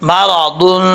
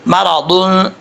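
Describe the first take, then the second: No difference in how they are said.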